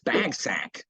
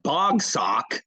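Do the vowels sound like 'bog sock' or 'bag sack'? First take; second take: bag sack; bog sock. First: The vowels sound like those in 'bag sack'. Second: The vowels sound like those in 'bog sock'. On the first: The speaker calls it right. "It's bagsack" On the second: The speaker calls it wrong. "It's not bog sock"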